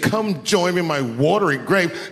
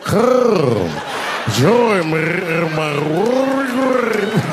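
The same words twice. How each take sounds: First: It is said in a plain voice. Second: It is said in a rough, throaty voice.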